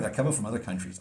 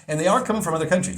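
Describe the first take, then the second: First: Said in the usual way. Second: "are" punched high and loud, quick delivery; insist, hitting the word "are" hard; stress on ARE. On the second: Real, not acted. Repeats it to insist it's true.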